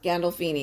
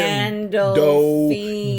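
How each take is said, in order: First: The name is said at a normal pace. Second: The name is said slowly and deliberately.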